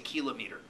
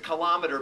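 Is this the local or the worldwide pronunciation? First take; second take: worldwide; local. First: It uses the pronunciation common in most places. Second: It uses the pronunciation common in this country. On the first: "most places in the world, they say" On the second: "here in this country, we pronounce it"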